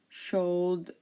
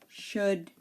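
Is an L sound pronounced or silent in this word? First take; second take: pronounced; silent. First: An L sound is pronounced in the word. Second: The L sound is silent in the word. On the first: The speaker calls it wrong. "We do not say cold, should, or would" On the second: The speaker calls it right. "We say could, should, and would"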